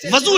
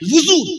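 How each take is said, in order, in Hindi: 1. पहले अक्षर में 'a' स्वर है। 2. पहले अक्षर में 'u' स्वर है। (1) "वज़ू नहीं, वज़ू ना कहा कीजिए" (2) "वुज़ू वाव पे पेश, वाव पे दम्मा लगाइए"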